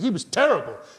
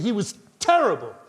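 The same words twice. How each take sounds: First: The T of terrible is short and soft. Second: The T of terrible is doubled and forceful. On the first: The speaker calls it wrong. "You wouldn't say he was terrible" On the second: The speaker calls it right. "So the T of terrible is double, you know, it's powerful in your mouth"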